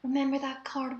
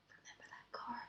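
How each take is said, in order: First: Voiced theatrical whisper meant to carry; stage whisper. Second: True unvoiced whisper, barely audible. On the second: Real, not acted. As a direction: whisper it so only your friend hears. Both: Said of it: "I should do a stage whisper so they can hear".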